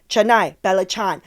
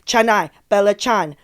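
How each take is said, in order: The two takes are said the same way.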